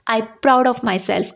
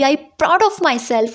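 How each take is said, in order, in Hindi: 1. यह सपाट तरीके से बोला गया है, बिना किसी भावना के। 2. यह दृढ़ता से, आत्मविश्वास भरे लहजे में बोला गया है। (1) "इसमें आपको फीलिंग्स ऐड नहीं करनी है।" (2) "एकदम कॉन्फिडेंट के साथ बोलिए"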